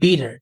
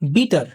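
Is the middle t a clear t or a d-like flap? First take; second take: flap; clear t. First: The middle t sounds like a soft d. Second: The middle t is a clear t sound. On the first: "এই টিটা এখানে ডি এর মতো উচ্চারণ হচ্ছে" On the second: "আমরা বাংলাদেশিরা কি বলি?"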